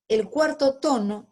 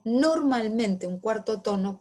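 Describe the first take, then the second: First: "cuarto" louder, pitched higher; stress on cuarto. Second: Said in the usual way. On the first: Shown as a demonstration. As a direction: punch the word "cuarto" to open the topic. (acento en "cuarto", más alto y fuerte)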